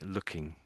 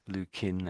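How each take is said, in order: First: The word ends with an ng sound. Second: The word ends with a plain n sound. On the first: The speaker calls it right. "so I'd say looking" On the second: The speaker calls it wrong. "I think you said Lou King, something like that. Lou Kin, actually"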